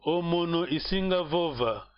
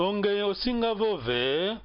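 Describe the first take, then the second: First: Falling statement tune on "isinga"; answer tune. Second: Rising question tune on "osinga", said slowly. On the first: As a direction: let "omono isinga vova" fall like a plain answer. (resposta afirmativa com entonação descendo em "isinga") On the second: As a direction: lift "Onge osinga vove" as a slow rising question. (pergunta lenta com entonação subindo em "osinga") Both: Shown as a demonstration. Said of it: "é já é ênfase na pergunta".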